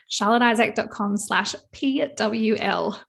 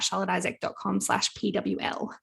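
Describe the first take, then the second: First: It is said slowly and deliberately. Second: It is said at a normal, quicker pace.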